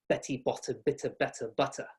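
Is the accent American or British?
British. It has a British accent with crisp flicked Ts.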